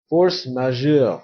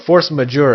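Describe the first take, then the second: First: It is pronounced with French sounds. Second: It is pronounced with English sounds.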